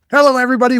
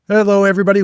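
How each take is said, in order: First: It is said with more energy. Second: It is said with low energy.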